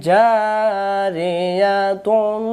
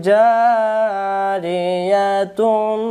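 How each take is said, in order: The two takes are said the same way.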